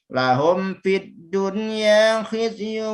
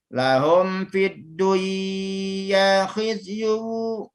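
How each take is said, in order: First: The n sound is pronounced clearly before y. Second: The n sound is merged into the y. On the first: The speaker calls it right. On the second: The speaker calls it wrong. "Tidak boleh ya"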